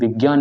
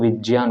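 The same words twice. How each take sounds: First: The middle cluster sounds like 'gya'. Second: The middle cluster sounds like 'jya'. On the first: The speaker calls it wrong. "जबकि वो विज्ञान नहीं होता, ... ज्ञ नहीं होता" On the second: The speaker calls it right. "वो विज्ञान होता है। ... वो ज्य होता है"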